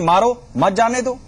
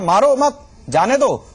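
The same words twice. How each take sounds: First: The pause comes after 'मारो'. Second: The pause comes after 'मत'.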